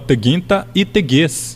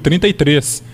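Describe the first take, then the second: First: The r sounds are replaced by a g sound. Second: The r sounds are pronounced clearly. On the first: The speaker calls it wrong. "Eu falava teguinta e teguês" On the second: The speaker calls it right. "o número 33"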